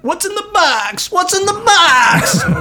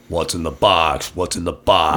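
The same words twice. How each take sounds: First: It is said in a higher voice. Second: It is said in a much lower voice.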